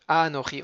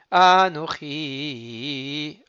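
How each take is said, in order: First: Said in the usual way. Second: Anochi with the opening a drawn out long; slow chanted Anochi, long a; stretched first a. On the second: Shown as a demonstration. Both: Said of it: "On rallonge sur le a".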